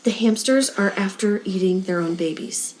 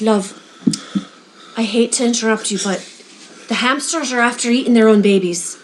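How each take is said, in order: First: Put-on Irish phrase in a plain American accent; soft, low American accent, deadpan retelling. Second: Lightly voiced Irish old lady; a polite Irish accent with a short hesitation. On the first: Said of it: "In the most American accent". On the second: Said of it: "this little old lady comes up".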